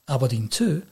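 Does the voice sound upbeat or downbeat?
downbeat. The tone sounds downbeat and deflated. The team has lost the match. "well, they've lost"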